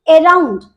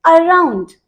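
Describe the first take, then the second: First: Around with a clear e opening, e-round; wrong around. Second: Around with a short light uh, uh-round; barely touch the first sound of around; correct around. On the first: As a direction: open around wide on e. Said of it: "वो totally गलत है". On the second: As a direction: around said uh-round, quick weak start. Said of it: "The correct pronunciation is". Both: Shown as a demonstration.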